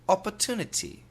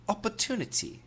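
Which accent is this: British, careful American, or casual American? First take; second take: British; British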